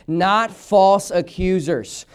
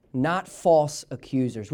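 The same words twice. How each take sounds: First: "Not false accusers" very slow, each word weighted and firm; emphatic repetition. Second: Said in the usual way. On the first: Shown as a demonstration. Preacher leading church in reading "Not false accusers", slow and emphatic on every word. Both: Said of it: "one more time for emphasis' sake".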